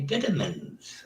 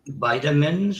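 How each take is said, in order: First: It is said in a British accent. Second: It is said in an American accent.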